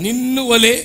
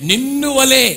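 First: వలే high and loud again; stress on వలే. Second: వలే high and loud; stress on వలే. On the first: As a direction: hammer వలే home. Repeated after correction. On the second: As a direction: insist on వలే. Contrast with neighbor. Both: Acted.

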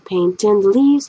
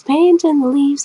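First: Said in the usual way. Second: Mock excitement. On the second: Shown as a demonstration. Painter hyping up the leaf painting to viewers, mock excited. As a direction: paint in the leaves sung out higher and slow. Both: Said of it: "How exciting".

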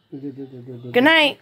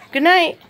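First: Much lower, mock deep good night. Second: Said in the usual way. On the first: Shown as a demonstration. Saying good night to the child, mock low voice. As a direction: drop the voice low for fun.

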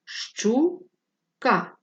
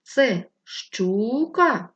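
First: «Щука» split as ЩУ-КА, each syllable chanted. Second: Slow, ЩУ in «щука» drawn out long; stress finding. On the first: Teacher to pupils, hand under chin, dividing «Щука» into syllables. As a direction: chant «Щука» in two clear syllables, ЩУ then КА. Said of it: "Поставте долоньку під підборіддя". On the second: Teacher to pupils, calling the word to find its stress. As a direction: stretch the first syllable of «щука», ЩУУУ-ка, as a question. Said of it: "Запитайте, це щука?". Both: Shown as a demonstration.

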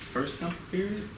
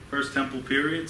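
First: "first temple period?" asked with a rising, unsure tune; softer, higher "period?" as a real question. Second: Said in the usual way. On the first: Shown as a demonstration. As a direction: check the date with the room, voice lifting on "period".

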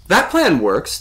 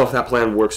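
First: High, loud excited echo. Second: Said in the usual way. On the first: A narrator's reading. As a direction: answer eagerly, pitch and volume up. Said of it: "the voice said excitedly".

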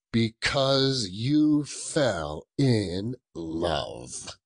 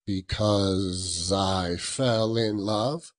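First: Slow mocking growl. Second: Said in the usual way. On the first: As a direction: drag it out, scornful. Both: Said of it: "growled Scrooge".

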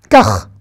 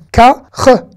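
First: KAR as one syllable ending in throaty kh; blended word. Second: KA, pause, RE as a throaty kh; separate letters. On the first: Teacher putting the letters together, blended in one syllable. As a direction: join "kar" into a single louder syllable. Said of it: "Kar, ça veut dire comme ça". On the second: Teacher reading the final letter, sounds separated. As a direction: sound out "Ka, re" in two louder pieces. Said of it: "donc ça se lit re". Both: Shown as a demonstration.

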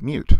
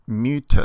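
First: Said in the usual way. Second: "mute" with an added syllable, MYOO-tuh; final e pronounced. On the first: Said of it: "isn't the same as the word mute". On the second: Shown as a demonstration. Teacher showing epsilon is never silent, "mute" said as two syllables. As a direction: sound the last e in "mute" as its own short syllable. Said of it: "with epsilon we always pronounce it".

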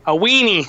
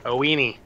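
First: "weenie" yelled higher and louder; excited shout. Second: Said in the usual way. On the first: Shown as a demonstration.

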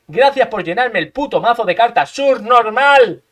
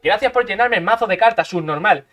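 First: Subnormal drawn out very slowly and loud; taunting gamer, stretching the insult; stretched mocking insult. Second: Said in the usual way. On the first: Shown as a demonstration. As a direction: drag out subnormal, very slow and louder. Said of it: "repeated with emphasis". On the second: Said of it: "repeats it louder".

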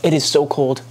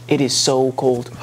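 First: Said in the usual way. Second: Slowed, drawn-out cold complaint; slow, shivering. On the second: Real, not acted. Shivering in the cold bath water, slow drawn-out complaint. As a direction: stretch it out as if chilled.

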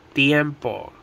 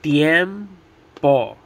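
First: Said in the usual way. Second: Tiempo broken into TIEM, pause, PO; split into syllables. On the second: Shown as a demonstration. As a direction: say Tiempo one syllable at a time. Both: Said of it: "Two syllables".

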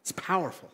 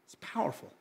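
First: Said in the usual way. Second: Breathy whisper on "powerful". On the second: Acted. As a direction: drop to a whisper for "It's powerful". Repeats phrase, second whispered.

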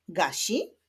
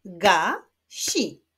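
First: Said in the usual way. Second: "Ga-si" as two separate beats; split into syllables. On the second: Shown as a demonstration. Teacher clapping syllables of gasi, split into beats. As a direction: clap out "Ga-si" with a pause between. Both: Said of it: "Wyklaszczmy sylaby w tych wyrazach".

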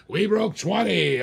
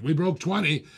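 First: Slower, higher, drawn-out announcement; excited. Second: Said in the usual way. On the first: Real, not acted. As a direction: savor the milestone like a hype call. Auctioneer celebrating bid milestone.

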